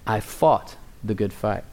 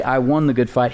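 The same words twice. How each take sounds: First: "fought" stressed, whole line softer and lower. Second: "won" given the weight as the wrong version; stress on WON. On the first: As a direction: drop the voice and press on "fought". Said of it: "He said". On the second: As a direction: lean on "won", the word Paul never said. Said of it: "But he did not say". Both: Shown as a demonstration.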